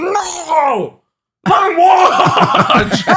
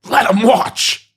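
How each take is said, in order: First: Very high, drawn-out hammed-up scream; Grimace, really mad. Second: High, drawn-out mock angry cry; Grimace, real mad. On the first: Grimace stops the mother, long hammed-up furious scream. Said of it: "Grimace gets really mad". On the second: Grimace protests to the stadium, hammed-up angry cry. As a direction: bellow it slowly, high and hammed-up. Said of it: "Grimace gets real mad".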